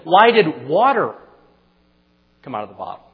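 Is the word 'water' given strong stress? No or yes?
yes. The word 'water' carries strong stress. The question asks why water in particular came out.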